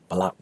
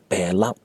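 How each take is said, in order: First: The word is said in a quick, reduced form. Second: The word is said in its full, careful form. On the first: This is how it sounds in fast speech. "When people are speaking very fast, it's usually Balau" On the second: This is the full pronunciation. "But fully pronounced is belau"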